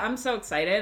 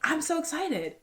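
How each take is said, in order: First: It is said flatly, without enthusiasm. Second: It is said with lively, positive energy.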